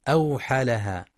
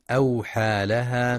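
First: "أوحى لها" with the alif after ha held full length; "أوحى لها" with a clear long a before laha; correct reading. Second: "أوحى لها" with the alif after ha clipped short; "أوحى لها" with the long vowel swallowed; wrong reading. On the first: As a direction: model it right: lengthen the a of "أوحى". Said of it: "والصواب". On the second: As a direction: show the error: rush the long a of "أوحى". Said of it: "يخطئ من يقرأ ... باختلاس الألف". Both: Shown as a demonstration.

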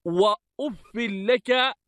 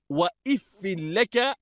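First: "وأف" with u first, i after the f; u-initial form. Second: "وإف" with i before and after the f; kasra on the alif. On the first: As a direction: say "وأف" as wa-uffi, starting with u. (نطق "وأف" بضم الألف وكسر الفاء) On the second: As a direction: say "وإف" as wa-iffi, starting with i. (نطق "وإف" بكسر الألف) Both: Shown as a demonstration. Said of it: "بكسر الألف".

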